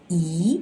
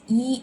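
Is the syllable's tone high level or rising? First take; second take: rising; high level. First: The syllable is said on a rising tone. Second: The syllable is said on a high level tone. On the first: "it shifts up to second tone" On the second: "original tone"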